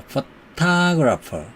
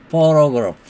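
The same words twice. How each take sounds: First: 포토그래퍼 said slowly, middle syllable 토 stressed. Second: 포토그래프 with the first syllable 포 stressed; 포토그래프, hit the first syllable 포. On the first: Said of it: "액센트가 있습니다". (포토그래퍼 중간 음절 강세, 천천히) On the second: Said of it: "맨 앞에 음절에 액센트가". (포토그래프 첫 음절에 강세) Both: Shown as a demonstration.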